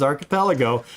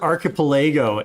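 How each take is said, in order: First: Archipelago said as arki-PEL-uh-go; proper pronunciation. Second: Archipelago said as arki-puh-LAY-go; mispronunciation. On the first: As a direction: stress a short PEL in archipelago. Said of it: "the proper pronunciation is". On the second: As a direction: stress a long LAY in archipelago. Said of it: "I pronounced it archipelago". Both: Shown as a demonstration.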